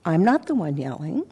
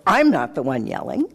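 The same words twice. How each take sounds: First: Evenly controlled reply, voice kept in check; modulated voice. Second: Low, curt self-righteous comeback; self-righteous retort. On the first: Shown as a demonstration. Modulating the voice toward her in the bathroom. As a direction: say it carefully measured, hiding the edge. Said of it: "conscious at the time of modulating my voice". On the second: Retold or imitated. Rushing back self-righteously at the woman who yelled. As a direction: snap back the line as if wronged. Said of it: "self-righteousness, and I rushed back with".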